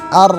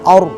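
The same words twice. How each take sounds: First: The lips stay neutral during the r sound. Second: The lips round along with the r sound. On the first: The speaker calls it right. "Enggak ada ikut sertanya bibir" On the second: The speaker calls it wrong. "jangan sampai bibir kita ngikut ar"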